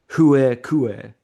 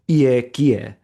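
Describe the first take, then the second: First: The words use an older Greek pronunciation. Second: The words use a modern Greek pronunciation.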